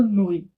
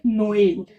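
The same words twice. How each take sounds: First: "नोल" as a single syllable; vowels run together. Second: "नोएल" in two syllables, no-el; vowels sounded separately. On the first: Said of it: "दोनों को साथ में". ("नोल" दोनों स्वर मिलाकर) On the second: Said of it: "इसको ए करेंगे". ("नोएल" में ए अलग से) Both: Shown as a demonstration.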